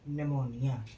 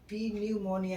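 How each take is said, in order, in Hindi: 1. शुरू में P की कोई ध्वनि सुनाई नहीं देती। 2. शुरू में P की ध्वनि सुनाई देती है। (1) "इसको पढ़ेंगे निमोनिया" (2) "इसको प्यू प्यू पी न्यूमोनिया नहीं पढ़ेंगे"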